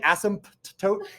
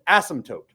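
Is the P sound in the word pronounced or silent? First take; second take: pronounced; silent. First: The P sound is clearly pronounced. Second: The P sound is left silent. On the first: The speaker calls it wrong. "Don't say asymptote. It just you'll sound like you have a stutter" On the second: The speaker calls it right. "You pronounce it asymptote"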